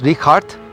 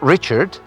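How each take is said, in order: First: It is said with German sounds. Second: It is said with English sounds. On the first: The speaker calls it right. "because it's German. It's a hard H" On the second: The speaker calls it wrong. "not Richard"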